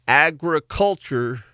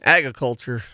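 First: The word is said with four syllables. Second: The word is said with three syllables. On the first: This is the speaker's own habitual way of saying it. "Four syllables" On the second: This is the way the speaker's wife prefers. "versus three"

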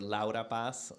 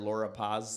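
First: The name is said with a Spanish pronunciation. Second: The name is said with an English pronunciation. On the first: The speaker calls it right. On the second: The speaker calls it wrong.

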